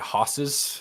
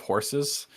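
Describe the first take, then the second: First: It is said in a thick Boston accent. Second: It is said in a general, non-Boston accent.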